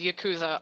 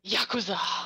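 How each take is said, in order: First: The word is said with a plain English pronunciation. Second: The word is said with an exaggerated Japanese pronunciation. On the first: "I can't just pronounce it as Yakuza" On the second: "I'll be like, one copy of Yakuza"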